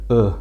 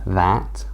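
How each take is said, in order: First: It is said quickly with a reduced uh vowel. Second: It is said slowly with a full vowel. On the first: "but when we say it quickly, it becomes a uh sound" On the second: "when we speak slowly, becomes that"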